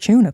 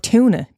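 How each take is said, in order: First: It is said with a British accent. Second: It is said with an American accent.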